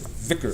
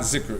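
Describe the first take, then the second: First: The first sound is a voiced th. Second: The first sound is a buzzing z. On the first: The speaker calls it right. "it's dhikr" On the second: The speaker calls it wrong. "it's not zikr"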